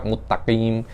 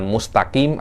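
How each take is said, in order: First: The s sound is merged into a double t. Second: The s sound is said clearly before t. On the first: The speaker calls it wrong. "sinnya Anda masukkan ke ta. Jangan semacam itu" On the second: The speaker calls it right. "Jangan mustaqim"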